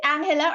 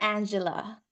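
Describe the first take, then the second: First: "Angela" said with a breathy h for the g; Spanish-style pronunciation. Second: "Angela" said with a soft j sound for the g; English pronunciation. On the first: Host checking a member's name, Spanish-style pronunciation. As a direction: say "Angela" as AHN-heh-la. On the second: Host checking a member's name, English pronunciation. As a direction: say "Angela" as AN-juh-la. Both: Shown as a demonstration. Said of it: "Is it Angela or Angela?".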